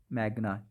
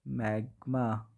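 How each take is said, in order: First: "मैग्ना" said with an n, mɛɡna, corrected and softer; self-correction. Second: "मैग्मा" said with an m, mɛɡma, a mistaken name; slip of the tongue. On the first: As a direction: fixes the slip to "मैग्ना", quietly. ("मैग्ना" सुधार कर n के साथ, धीमे से) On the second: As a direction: says "मैग्मा" by mistake before correcting it. ("मैग्मा" गलती से m के साथ बोला) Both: Real, not acted.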